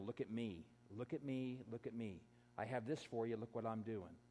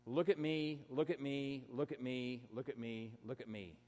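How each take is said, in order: First: Much softer and lower mock plea; a hushed, sneering imitation of showing off; quiet mock of self-promotion; mocking look at me. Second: A mock plea for attention, dying away; a mocking chant that trails off to almost nothing; mocking look at me. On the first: Quoting attention seekers on Instagram. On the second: Mocking attention seekers, fading out.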